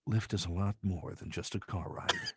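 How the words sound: A very breathy, snooty luxury-brand voice.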